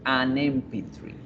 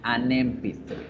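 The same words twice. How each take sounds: First: An n sound links the article to 'M'. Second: The same.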